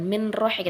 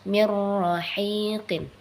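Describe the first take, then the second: First: The n is pronounced clearly before the r. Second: The n merges into the r without nasal hum. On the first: The speaker calls it wrong. "Bukan izhar juga, bukan min rahiqin" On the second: The speaker calls it right. "hanya dimasukkan saja, tidak dengan dengung"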